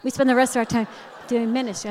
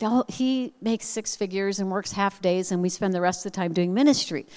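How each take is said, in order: First: Higher, cutesy mimicry of the friend; hammed-up dainty sing-song; mock sweet friend. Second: Lightly voiced sugary friend; imitated sweet friend. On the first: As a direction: exaggerate her sweetness, pitched up. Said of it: "in my head, I saw her leg go up". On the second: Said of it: "she said so sweetly".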